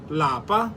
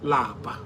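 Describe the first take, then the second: First: The word is said with a high tone. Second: The word is said with a low tone. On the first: It means home. "In higher tone" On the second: It means to be tired. "Lower tone"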